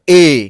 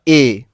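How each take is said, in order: First: The letter is said at a louder volume. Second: The letter is said at a softer volume. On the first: The sound wave has a larger amplitude. "उससे और तेज बोला मैंने ए" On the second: The sound wave has a smaller amplitude. "जैसे मैं बोला ए"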